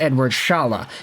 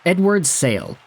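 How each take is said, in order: First: The surname begins with an 'sh' sound. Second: The surname begins with a plain 's' sound. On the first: The speaker calls it right. "It's actually pronounced Edward Shala" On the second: The speaker calls it wrong. "that's incorrectly pronounced"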